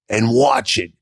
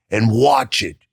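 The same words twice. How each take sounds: First: "watch" flung up high in defiance; defiant high call. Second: Said in the usual way. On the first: Retold or imitated. Telling the people who doubted him, high and defiant. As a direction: throw it back at the doubters.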